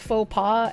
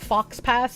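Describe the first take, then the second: First: The x and s are silent. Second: The x and s are sounded.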